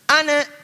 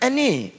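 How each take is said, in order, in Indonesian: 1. Kata ini berakhir dengan vokal a terbuka. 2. Kata ini berakhir dengan vokal e depan. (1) "Ada yang bisa A" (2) "Bisanya E"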